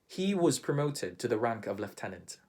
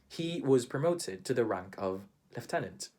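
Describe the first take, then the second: Both takes have the same delivery.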